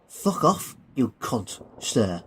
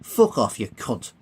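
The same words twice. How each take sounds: First: Mock-respectful insult. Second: Dismissive insult. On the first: Billy saluting the Colonel, insolently mock-respectful. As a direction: repeat the insult as if obeying protocol. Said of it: "turning back round and smartly saluting". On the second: Acted. Billy brushing off the Colonel, dismissive. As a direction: throw the insult away over your shoulder.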